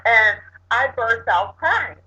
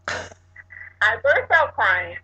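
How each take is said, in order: First: Said in the usual way. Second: I burst out crying said very slowly, each word weighted; slow emphatic repeat. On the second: Shown as a demonstration. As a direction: lean on out and stretch the phrase slowly. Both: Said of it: "when I say burst out".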